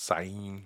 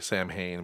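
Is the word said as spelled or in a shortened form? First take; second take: shortened; as spelled. First: The word is said in a shortened form. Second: The word is said as it is spelled. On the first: The speaker calls it right. "but it's Sain" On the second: The speaker calls it wrong. "we say Samhain"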